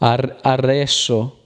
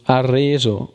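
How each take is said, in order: First: The middle S is long and hissing. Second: The middle S is short and buzzing. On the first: The speaker calls it wrong. "Se volessi dire arreso con due S, che non esiste quella parola" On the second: The speaker calls it right. "Arreso sembra vibrare da quello che noto quando la dico"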